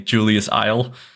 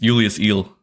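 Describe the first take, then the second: First: The surname's vowel sounds like 'eye'. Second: The surname's vowel sounds like 'ee'. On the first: The speaker calls it wrong. "people at I L M or something called me Julius Isle" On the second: The speaker calls it right. "and it's Julius Eel"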